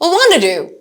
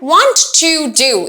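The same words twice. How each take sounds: First: The words are weakened and run together. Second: Each word is said fully and strongly. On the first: The speaker calls it right. "এই পার্টটুকুকেও আমি strongly উচ্চারণ করছি না।" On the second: The speaker calls it wrong. "এভাবে বলছি না"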